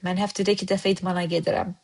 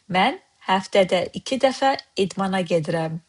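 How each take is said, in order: First: The sentence is spoken quickly. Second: The sentence is spoken slowly. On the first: "I said it too fast?" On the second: "Let's slow down"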